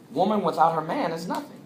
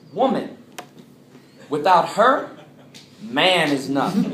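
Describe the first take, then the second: First: It pauses after 'man', grouping 'her man'. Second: It pauses after 'her', making 'man' the subject.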